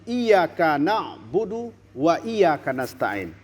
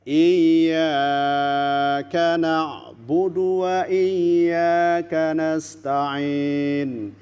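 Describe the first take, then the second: First: The y is single and the vowel short. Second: The y is doubled and the vowel lengthened. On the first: To the sun we worship and ask for help. The speaker calls it wrong. "Ianya tidak ditasdidkan, ianya tidak dipanjangkan" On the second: You alone we worship and ask for help. The speaker calls it right. "Kepada engkau kami menyembah"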